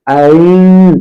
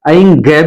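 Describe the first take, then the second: First: It ends in a nasalized vowel, no consonant. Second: It ends with an added g sound. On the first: The speaker calls it right. "असली उच्चारण है ऐं ऐं" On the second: The speaker calls it wrong. "ऐं ग भी नहीं है"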